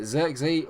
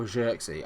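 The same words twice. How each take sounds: First: ZIRKZEE opening with a buzzing z; first pronunciation option. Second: ZIRKZEE opening with a soft zh; alternative pronunciation. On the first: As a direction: say Zirkzee with a plain z as in zoo. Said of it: "can never really say the word Zirkzee". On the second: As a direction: say Zirkzee starting like the s in measure. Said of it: "I say Zirk". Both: Shown as a demonstration.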